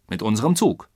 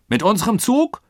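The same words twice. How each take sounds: First: Matter-of-fact confirmation, falling end; confirming answer. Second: High, loud incredulous question; ungläubig. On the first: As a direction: confirm it evenly, in usual pitch. Answer confirming the Colonel's question. (sachlich bestätigend) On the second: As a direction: ask in disbelief, rising sharply at the end. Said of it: "fragte ungläubig der Oberst". (ungläubige, hohe Frage) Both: A narrator's reading.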